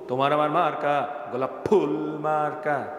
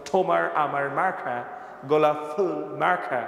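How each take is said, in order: First: Said in the usual way. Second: Bangla slogan as an English speaker would say it; mock English-accented Bangla slogan. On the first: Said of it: "আমরা বাংলায় কি বলি?". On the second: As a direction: imitate an Englishman speaking Bangla, aspirated consonants. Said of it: "ইংরেজরা যদি ওই ... তাহলে কি বলতো".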